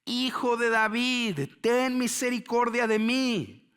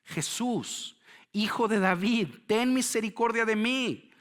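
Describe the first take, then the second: First: Slow, high, loud drawn-out cry; shouting much harder. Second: Loud, high plea for mercy; crying out. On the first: Hushed by the crowd, blind beggar persists, shouting much harder. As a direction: stretch the plea into an insistent shout. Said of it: "él gritaba mucho más". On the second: Blind beggar calls out to Jesus as he passes, crying out. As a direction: shout it as the blind beggar calling out. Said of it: "Entonces gritó diciendo". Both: Acted.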